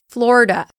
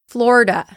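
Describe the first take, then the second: Both takes have the same delivery.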